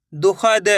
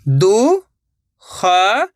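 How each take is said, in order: First: Said in the usual way. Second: दुखद in slow, separated syllables. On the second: Shown as a demonstration. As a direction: sound out दुखद, pausing between syllables. (दुखद को एक-एक अक्षर अलग करके) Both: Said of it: "एक अक्षर का उच्चारण करके".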